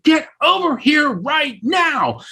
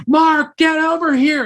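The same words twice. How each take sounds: First: High, drawn-out shouted order; acted-out impatient holler, slow and high; insistent shout. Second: High, raised call across a room; urgent high-pitched holler, acted out. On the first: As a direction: call them over slowly, every word stretched high. Repeated, more insistent summons from afar. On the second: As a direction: summon someone from far off, pitched way up. Calling him across the room.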